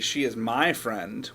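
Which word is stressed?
my. The word "my" carries the emphasis. She is not your friend. "what I mean is she's not your friend"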